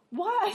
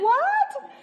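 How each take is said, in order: First: Short raised what; a stunned, higher "What?"; surprised. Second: Very high, louder "What?" with a laugh; a squealed, laughing "What?" in disbelief; shocked laughing. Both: Retold or imitated. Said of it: "I just was shocked".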